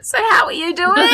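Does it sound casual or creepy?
creepy. It is said in an overeager, creepy way.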